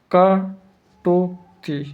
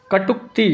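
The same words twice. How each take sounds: First: कटुक्ति stretched very slowly, every sound held long; drawn-out demo. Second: Said in the usual way. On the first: Shown as a demonstration. Teacher showing students how to write कटुक्ति, very slowly. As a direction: drag out कटुक्ति slowly as if writing it on the board. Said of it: "कटुक्ति ऐसे लिखेंगे". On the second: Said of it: "कटुक्ति कैसे लिखेंगे?".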